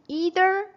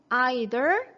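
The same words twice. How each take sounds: First: The first vowel sounds like 'ee'. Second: The first vowel sounds like 'eye'. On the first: "미국 발음에서는 E 하는데" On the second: "영국 발음에서는"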